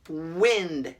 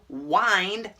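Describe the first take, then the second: First: The vowel is a short I sound. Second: The vowel is a long I sound. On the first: It names moving air. "Short I" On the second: It means to wrap something around. "long I"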